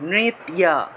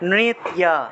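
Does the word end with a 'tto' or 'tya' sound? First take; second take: tya; tya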